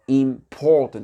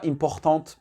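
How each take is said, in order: First: It is said the English way, stressing 'por'. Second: It is said the French way, like a French word. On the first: The speaker calls it right. "Accent tonique, il est sur le P O ici" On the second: The speaker calls it wrong. "c'est un mot français"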